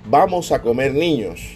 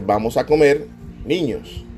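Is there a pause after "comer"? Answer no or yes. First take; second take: no; yes. First: There is no pause after "comer". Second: There is a pause after "comer". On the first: The children are the ones being eaten. "la de arriba dice, vamos a comer niños, sin coma" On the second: The children are being invited to eat. "con la coma delante, después de la palabra comer"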